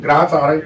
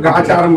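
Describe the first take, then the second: First: గ్రాచారం said carefully, with the r after the g sounded; correct గ్రాచారం. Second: గాచారం said the everyday way, with no r after the g; colloquial గాచారం. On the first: Teacher correcting the congregation's word, careful pronunciation. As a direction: give the full correct గ్రాచారం, short for గ్రహ సంచారం. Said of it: "అది పదం అదే correct". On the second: Speaker showing listeners the common spoken form. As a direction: drop the r: గాచారం, as people say it. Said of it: "నోటి మాటలో గాచారం బాగలేదు అంటారు". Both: Shown as a demonstration.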